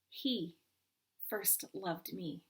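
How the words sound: The stress falls on the word he.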